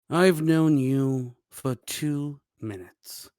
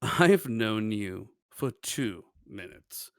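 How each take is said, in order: First: It is said seriously, without amusement. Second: It is said smiling, sounding amused.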